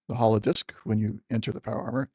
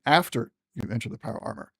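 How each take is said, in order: First: Said in the usual way. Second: After stressed as the correction. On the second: Real, not acted. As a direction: lean on after to fix it.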